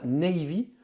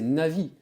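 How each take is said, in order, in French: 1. La première voyelle se prononce comme 'ay'. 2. La première voyelle se prononce comme 'ah'. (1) "il y a beaucoup de gens qui prononcent ça Navy" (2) "c'est Navi, comme un navigateur"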